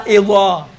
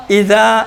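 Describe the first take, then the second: First: اذا thick and rounded, "izaw"; heavy zaa. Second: اذا with a light th-like ذ and open vowel; thin zaal. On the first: Teacher repeats the contrast, heavy. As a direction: say اذا full-mouthed as ظ. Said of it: "بس زال کو آپ موٹا تلفظ کریں گے". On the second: Teacher repeats the contrast, thin. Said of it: "اب اسی اذا کو موٹا پڑھو". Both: Shown as a demonstration.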